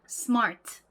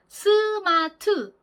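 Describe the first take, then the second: First: No vowel sounds follow the s and the t. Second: Vowel sounds follow the s and the t. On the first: The speaker calls it right. "S와 T에는 모음 소리가 없고요" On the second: The speaker calls it wrong. "스와 트를 으라는 정확한 모음 소리가 나게 발음을 하잖아요"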